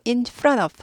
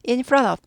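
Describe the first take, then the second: First: The t in front is quickly glided over. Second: The t in front is quickly glided over.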